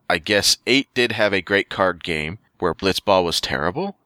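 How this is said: The voice rises at the end, like a question.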